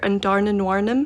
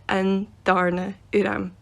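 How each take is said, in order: First: The name has extra syllables added in. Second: The name has fewer syllables, in separate words. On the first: The speaker calls it wrong. "I don't know where all those extra syllables are coming from" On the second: The speaker calls it right. "You pronounce it Andarna Uram. It's three words"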